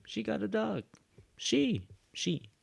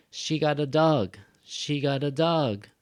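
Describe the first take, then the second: First: High-pitched emphasis on "she"; stress on SHE. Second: "dog" punched, then falling; stress on DOG. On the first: Teacher shifts the strong word for learners, stressing "she". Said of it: "I made she stronger". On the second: Teacher shows the usual stronger part, stressing "dog". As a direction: make "dog" the strong word of the statement. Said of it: "Dog is usually the stronger part". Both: Shown as a demonstration.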